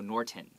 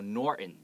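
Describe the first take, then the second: First: The middle T sound is clearly pronounced. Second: The middle T sound is dropped. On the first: The speaker calls it wrong. "We don't go Norton" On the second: The speaker calls it right. "We go Norton"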